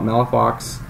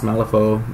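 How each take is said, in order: First: The name is said in a non-French way. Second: The name is said in a French way. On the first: This is how some people say it. The speaker calls it wrong. "some people call it Malafox" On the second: This is the proper way to say it. The speaker calls it right. "I think it's pronounced Malifaux, the proper French way"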